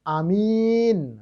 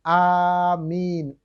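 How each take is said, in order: First: Both vowels are said short. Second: Both vowels are drawn out long. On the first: The speaker calls it wrong. "Jangan amin" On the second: The speaker calls it right. "A-nya panjang, min-nya panjang"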